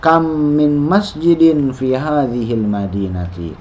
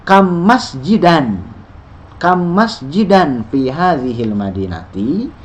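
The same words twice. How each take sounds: First: "Kam min masjidin fi hadhil madinati?" slow, falling at the end; slow statement reading with the tune dropping; statement intonation. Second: "Kam masjidan fi hadhil madinati?" slow, rising at the end; slow teacher's question with a lifted ending; question intonation. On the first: (intonasi pernyataan, turun di akhir) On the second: (intonasi pertanyaan, naik di akhir) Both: Shown as a demonstration.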